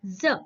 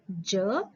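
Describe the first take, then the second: First: ज said as a buzzing z, the nukta sound; ज spoken as za with a clear z. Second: ज said with a plain j as in jal; the letter ज with a clear dzh sound, no nukta. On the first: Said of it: "second जो है ज". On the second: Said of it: "first जो है ज". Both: Shown as a demonstration.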